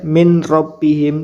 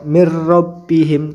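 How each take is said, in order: First: The n is pronounced separately before the r. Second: The n merges into the r without nasal hum. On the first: The speaker calls it wrong. "tidak boleh min rabbihim" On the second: The speaker calls it right. "nunnya dimasukkan ke ro dan tanpa dengung langsung dibaca ro"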